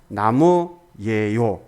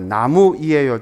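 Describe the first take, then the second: First: The ending is contracted into two syllables. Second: The ending is said as three separate syllables. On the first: "줄어서 나무예요"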